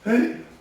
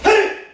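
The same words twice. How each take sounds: First: The shout is weak and without power. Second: The shout is strong and powerful.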